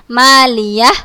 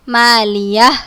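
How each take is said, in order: Both takes have the same delivery.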